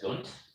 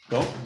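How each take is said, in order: First: The name ends with a consonant sound. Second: The name ends with a plain vowel sound. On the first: The speaker calls it wrong. "Excuse me if I uh, can't pronounce that" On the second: The speaker calls it right. "Probably French if it has an X on the end"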